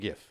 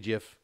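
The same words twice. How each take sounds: First: The word begins with a hard G sound. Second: The word begins with a J sound. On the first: "it looks like GIF, so I'm saying GIF" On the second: "like the like the peanut butter"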